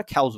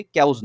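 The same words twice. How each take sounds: First: খ্যাউজ with breath after the k, "khauz"; aspirated k. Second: ক্যাউজ with a plain k, "kauz"; wrong unaspirated k. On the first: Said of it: "উচ্চারণটা একটু খয়ের মতো হয়". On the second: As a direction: say ক্যাউজ without breath after the k. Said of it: "ক্যাউজ না বলে". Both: Shown as a demonstration.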